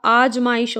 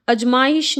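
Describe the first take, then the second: First: आजमाइश with long opening "aa"; correct vowel demo. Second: अजमाइश with short opening "a"; wrong vowel demo. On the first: Teacher corrects students, आजमाइश with long first vowel. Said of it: "होता है". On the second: Teacher shows the mistake, अजमाइश with short first vowel. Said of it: "नहीं होता". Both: Shown as a demonstration.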